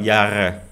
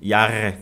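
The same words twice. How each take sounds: Both takes have the same delivery.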